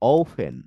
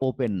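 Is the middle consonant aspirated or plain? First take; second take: aspirated; plain. First: The middle consonant is an aspirated p. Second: The middle consonant is a plain p. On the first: The speaker calls it right. "ও দিয়ে ওফেন" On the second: The speaker calls it wrong. "ও দিয়ে আর ওপেন নয়"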